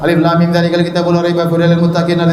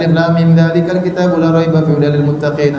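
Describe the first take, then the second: First: It is recited in a hurried, careless rush. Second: It is recited at a steady, moderate pace. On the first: The speaker calls it wrong. "Jangan begitu juga" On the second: The speaker calls it right. "baca biasa aja"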